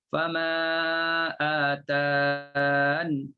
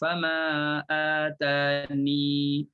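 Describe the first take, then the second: First: The last word ends on the 'n' sound. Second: The last word ends with a final 'ee' vowel. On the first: "tak nak letakkan ya" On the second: "letakkan ya"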